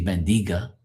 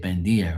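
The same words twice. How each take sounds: First: "bendiga" said ben-dee-gah; wrong pronunciation with g. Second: "bendiga" said ben-dee-ah; g left silent. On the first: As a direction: sound a hard g in "bendiga". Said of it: "You don't say". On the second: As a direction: drop the g in "bendiga". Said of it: "That's how you say it". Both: Shown as a demonstration.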